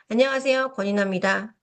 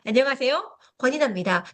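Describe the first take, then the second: First: The voice is held back and weak. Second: The voice is projected far forward.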